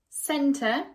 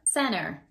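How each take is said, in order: First: It ends in a schwa without an R. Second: It ends with a clear R sound. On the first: "we use it a lot in British English" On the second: "in American English, ... we do keep the R sound"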